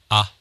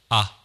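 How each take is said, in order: First: The voice is dry with no added reverb. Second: The voice echoes as in a large room. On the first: "リバーブを入れない通常の状態にて話しております" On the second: "広い部屋で話しているような音に聞こえるかと思います"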